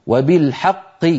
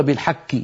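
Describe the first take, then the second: First: "وبالحق" with a clear, firm qaf at the end; correct qaf. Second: "بالحق" with the final qaf softened into a k, softer; softer mistaken "بالحق" with a kaf sound; wrong kaf ending. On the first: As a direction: model the right "وبالحق". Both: Shown as a demonstration. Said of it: "ولا نقول".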